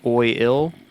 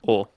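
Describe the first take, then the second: First: The vowel is a full gliding 'oy' sound. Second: The vowel is shortened, with no 'ee' glide. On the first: "Instead of saying oil" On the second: "The I's very shortened where you just don't say the I"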